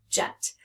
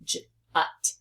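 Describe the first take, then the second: First: Said in the usual way. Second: Jut split into a j sound, then ut. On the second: Shown as a demonstration. Teacher showing the t ending, Jut sounded out as j, ut. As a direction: break Jut after the first sound. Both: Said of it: "I hear just the t".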